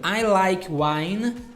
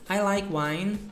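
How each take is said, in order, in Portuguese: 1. Ela é falada devagar e com cuidado, palavra por palavra. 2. Ela é falada em ritmo natural, conectado, de conversa. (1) "Quando eu falo um pouquinho mais pausado para você repetir" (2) "de forma mais natural"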